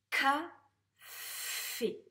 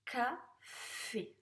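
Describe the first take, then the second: First: "Café" as loud, high ca, then long ffff-é; sounded-out reading. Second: "Café" as ca, pause, fffé; syllable-by-syllable reading. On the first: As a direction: blend "Café" slowly, holding the f. (« Café » déchiffré fort, avec un f très allongé) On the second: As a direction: read "Café" slowly in two syllables, less forcefully. (« Café » lu en deux syllabes, plus posément) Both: Shown as a demonstration. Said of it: "Allez, on corrige".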